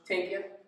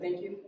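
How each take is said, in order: First: Thank begins with a plain t sound. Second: Thank begins with a soft th sound. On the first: "The soft T H is like a T sound" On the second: "Instead of thank you"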